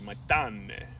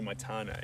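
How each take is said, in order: First: The name is said in a lively Spanish accent. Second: The name is said in a flat New Zealand accent. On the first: The speaker calls it right. "they add the twang to it" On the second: The speaker calls it wrong. "That's how a Kiwi would say it"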